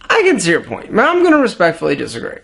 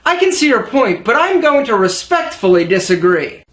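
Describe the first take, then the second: First: It is mumbled and hard to make out. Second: It is spoken clearly at a steady pace. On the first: The speaker calls it wrong. "if you mumble when you speak, you might sound like this" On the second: The speaker calls it right. "Check it out"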